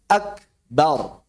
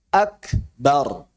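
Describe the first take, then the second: No difference in how they are said.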